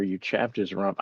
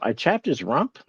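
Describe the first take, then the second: First: Said in the usual way. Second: "chapped" rising in disbelief, questioning "I chapped his rump?"; baffled repeat with a rising end; incredulous echo. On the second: Real, not acted. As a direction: echo the chat, stunned, lifting on "chapped".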